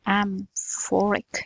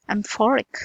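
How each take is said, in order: First: Amphoric stretched out very slowly and quietly; slow drawn-out amphoric. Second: Said in the usual way. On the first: Shown as a demonstration. Teacher slowly stretches Amphoric to show its ring. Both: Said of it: "That's metallic".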